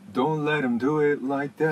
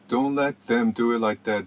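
First: The 'th' is dropped, linking 'let' to 'em'. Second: The 'th' in 'them' is fully pronounced. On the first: The speaker calls it right. "THM っていうTH のところを、let にアパーシュフィーをかけて" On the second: The speaker calls it wrong. "Don't let them do it like that ではなくて"

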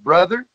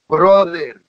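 First: The word is said with a plain English accent. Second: The word is said with a Spanish accent.

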